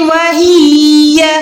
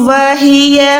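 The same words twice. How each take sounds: First: The vowel after the h is stretched long. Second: The vowel after the h is kept short. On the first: The speaker calls it wrong. "ऐसे हाजिर ही करके खींच के पढ़ते हैं, लेकिन ये बहुत बड़ी मिस्टेक है" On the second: The speaker calls it right. "सिर्फ हाजिर है, ही नहीं बल्कि है"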